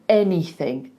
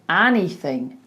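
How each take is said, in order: First: The first vowel is a narrower 'eh' sound. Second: The first vowel is a wide, open 'ah' sound. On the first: The speaker calls it right. "instead of anything, eh" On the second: The speaker calls it wrong. "So he goes anything, ah"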